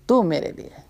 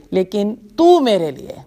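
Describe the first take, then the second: First: The same words repeated much softer, with تو stressed; soft echo. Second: Said in the usual way. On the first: Shown as a demonstration. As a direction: let تو میرے لیے fade into a soft echo.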